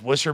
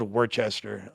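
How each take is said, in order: First: The name is said in a short, reduced form. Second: The name is read out as it is written. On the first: This is how the name is actually said. "it's pronounced" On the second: This is how the name is written. "but spelled"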